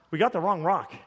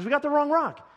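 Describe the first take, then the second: First: Low, deflated repeat; resigned. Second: High-pitched mock exasperation; exasperated. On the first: Retold or imitated. Pastor acts out accepting the bad news, resigned. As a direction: let the protest drop into acted resignation. Same words, sinking into acceptance. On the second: Pastor acts out protesting the wrong rock, exasperated.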